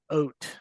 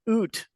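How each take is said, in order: First: The vowel sounds like the one in boat. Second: The vowel sounds like the one in boot. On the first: This is how the accent really sounds. The speaker calls it right. "It's it's oat, right? Like a boat" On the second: This is how others imitate the accent. The speaker calls it wrong. "it's not oot like people say it is"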